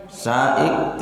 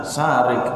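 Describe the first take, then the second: First: Saik said with a plain s and no r, the wrong form; wrong reading saik. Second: Sarik said with a clear rolled r before the final ik; correct reading sarik. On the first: Teacher shows students the wrong reading, saik without r. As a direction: Saik without the r sound, shown as the mistake. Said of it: "Nggak boleh ana saik menjadi ana sarik". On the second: Teacher gives students the correct reading, sarik with r. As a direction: sarik with the r sounded, the right form. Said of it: "tidak boleh salah membaca sarik". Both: Shown as a demonstration.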